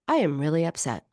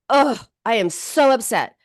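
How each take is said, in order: First: It is said flatly, without felt emotion. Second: It is said with intense, felt emotion.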